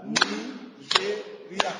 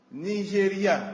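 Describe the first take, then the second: First: "Nigeria" split as "Ni-ge-ri-a", very slow and soft; syllables clapped out. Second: Said in the usual way. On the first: Shown as a demonstration. Teacher clapping out "Nigeria" syllable by syllable for the class. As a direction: draw "Nigeria" out beat by beat. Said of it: "tapiez des mains à chaque syllabe". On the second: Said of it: "Je vais vous lire une liste".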